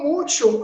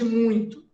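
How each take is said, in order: First: It is pronounced like the Spanish word mucho. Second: It is pronounced with the Portuguese nasal diphthong. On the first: The learner's Spanish slipped into the sentence. The speaker calls it wrong. "a Maria falou muito" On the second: This is the correct Portuguese form. The speaker calls it right. "ao invés de muito"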